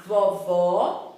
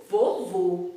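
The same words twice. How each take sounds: First: VOVÓ with open "aw" vowels; open, clear O in "vovó". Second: VOVÔ with closed, rounded "oh" vowels. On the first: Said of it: "o som da palavra vovó é aberto". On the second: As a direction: say "vovô" with a tight final O. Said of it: "o som da palavra vovô é mais fechado". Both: Shown as a demonstration.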